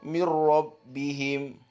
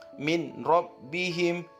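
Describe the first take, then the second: First: The n merges into a doubled r sound. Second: The n is sounded clearly before the r.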